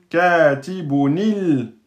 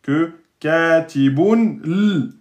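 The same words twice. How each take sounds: First: Katibunil slow and smooth, with i before L; correct linking. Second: Katibun l slow, with a bare L after n; awkward wrong form. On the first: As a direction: flow easily into Katibunil. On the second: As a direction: show the harder clash katibun l. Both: Shown as a demonstration. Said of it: "C'est plus simple".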